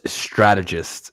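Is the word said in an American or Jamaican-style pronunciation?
American. It is said with the standard American pronunciation. The speaker calls it right. "the word is strategist"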